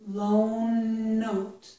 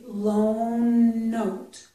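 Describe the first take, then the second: First: One long n sound joins the two words. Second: The same.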